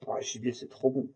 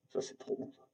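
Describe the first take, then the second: First: Said in the usual way. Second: Hushed whisper of delight; whispering how good game meat is; whispered aside. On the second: Real, not acted. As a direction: breathe it out to yourself, savouring. Repeats the praise under her breath.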